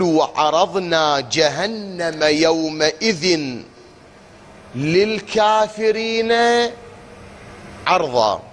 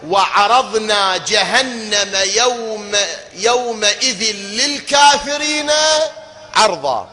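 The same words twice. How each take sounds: First: Slow, melodic Quranic chanting; slow chanted recitation with a near-sung للكافرين. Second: Emphatic tajwid recitation; Quran recitation. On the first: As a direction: draw the verse out in tajwid style. Reciting Quran verse slowly. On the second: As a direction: lean on للكافرين as you chant it slowly. Recites verse to contrast wording. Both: Acted.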